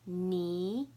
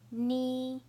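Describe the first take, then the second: First: The pitch rises from mid to high. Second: The pitch stays high and level.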